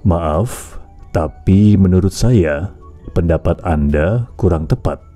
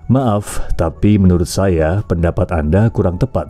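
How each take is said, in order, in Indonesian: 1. Diucapkan dengan lambat dan nada akhirnya rendah. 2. Diucapkan dengan tempo yang lebih cepat dan biasa.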